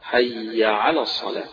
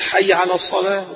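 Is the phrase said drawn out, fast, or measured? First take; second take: measured; fast. First: The phrase is said at a measured length. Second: The phrase is rushed through quickly. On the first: The speaker calls it right. "لا بد من التشديد" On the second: The speaker calls it wrong. "بيجري فيها بالشكل ده"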